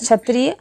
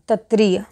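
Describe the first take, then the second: First: The word begins with a 'ksh' sound. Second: The word begins with a 'chh' sound. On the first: The speaker calls it right. "क्षत्रिय वाला छा है" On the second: The speaker calls it wrong. "क्षत्रिय का क्षत्रिय हो जाता है"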